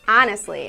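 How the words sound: It is said with a Midwestern accent. "I say things like"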